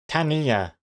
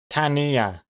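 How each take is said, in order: First: The name is said with three syllables. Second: The name is said with three syllables.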